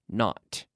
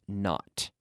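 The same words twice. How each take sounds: The two takes are said the same way.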